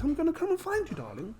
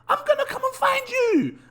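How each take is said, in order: First: It is said in a posh accent. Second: It is said in a London street accent.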